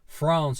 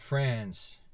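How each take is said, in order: First: It uses the British pronunciation of the word. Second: It uses a non-British pronunciation of the word. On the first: "You like to say France" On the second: "and not France"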